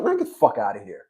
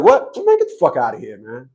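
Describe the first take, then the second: First: Low, dropped brush-off; quiet retold dismissal; dismissive brush-off. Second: Sharp "What?" then a dropped brush-off; retold tough dismissal; dismissive brush-off. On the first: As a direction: wave him off under the breath. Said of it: "I said". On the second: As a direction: snap at him, then dismiss him. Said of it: "But the way I said".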